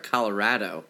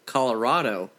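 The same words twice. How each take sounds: First: The name is pronounced the way Colorado locals say it. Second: The name is pronounced the East Coast way. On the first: "that's how they say it over there" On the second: "over on the East Coast, we say Colorado"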